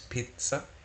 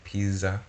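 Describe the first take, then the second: First: The middle consonant is a sharp ts sound. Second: The middle consonant is not a sharp ts. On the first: The speaker calls it right. "it's pizza, The sound is T S" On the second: The speaker calls it wrong. "We don't say pizza"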